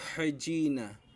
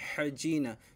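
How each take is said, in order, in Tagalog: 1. Ang gitnang katinig ay tunog j. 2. Ang gitnang katinig ay tunog j.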